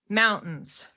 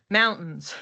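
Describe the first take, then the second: No difference in how they are said.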